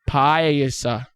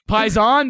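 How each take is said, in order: First: The name ends without a final n sound. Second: The name ends with a final n sound. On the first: The speaker calls it wrong. "You're so close" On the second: The speaker calls it right.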